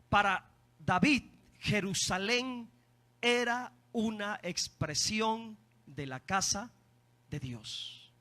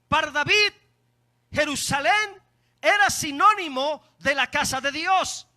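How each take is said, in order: First: It is said very slowly. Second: It is said at a normal speed.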